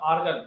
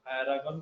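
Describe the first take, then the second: First: आर्गन as two syllables, ar-gan; correct pronunciation. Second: एरागन with an extra vowel, a-ra-gan; wrong pronunciation. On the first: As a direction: say आर्गन tightly, no extra vowel. (आर्गन, सही उच्चारण) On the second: (एरागन, गलत उच्चारण) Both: Shown as a demonstration. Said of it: "एरागन नहीं रे".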